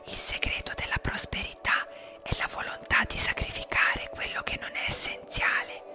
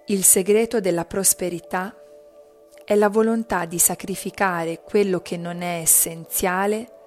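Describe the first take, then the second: First: It is spoken in a whisper. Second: It is spoken in a loud voice. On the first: "poi sussurrando" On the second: "Prima a voce alta"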